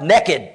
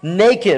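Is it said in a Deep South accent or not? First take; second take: deep south; not southern. First: It is said in a Deep South accent. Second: It is said without a Southern accent.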